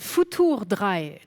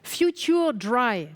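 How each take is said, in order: First: The title is pronounced the German way. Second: The title is pronounced the English way. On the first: The speaker calls it right. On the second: The speaker calls it wrong.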